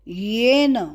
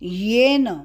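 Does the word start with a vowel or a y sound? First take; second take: y sound; y sound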